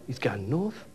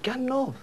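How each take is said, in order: First: "gone north" drawn out in Geordie; grave revelation. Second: "gone north" pitched up high in disbelief; incredulous echo. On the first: Colleague reveals where the boss went, solemnly stating "gone north". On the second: Teller answers colleague's news with a high, incredulous "gone north". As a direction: throw "gone north" back, much higher. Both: Retold or imitated.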